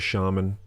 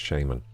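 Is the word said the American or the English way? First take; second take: American; English. First: The word is said with an American pronunciation. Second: The word is said with an English pronunciation. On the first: "Americans say it's shaman" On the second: "English people say it's shaman"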